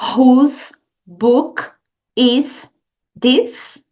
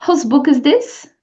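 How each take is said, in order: First: It is said slowly and carefully. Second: It is said at a natural, everyday pace.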